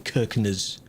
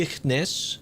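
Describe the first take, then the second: First: The name begins with a 'k' sound. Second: The name begins with an 'sh' sound. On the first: This follows the spelling so that viewers understand. "because if you say a word that is not how it's spelled, they won't know" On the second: This is how locals say the name. "That is not how I thought it would be said, but it's something like that"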